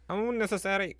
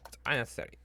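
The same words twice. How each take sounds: First: Unnecessary yelped out much higher and louder; higher, louder mock-indignant repeat of unnecessary; exasperated outburst. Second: Said in the usual way. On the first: Shown as a demonstration. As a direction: fling the word unnecessary out in disbelief.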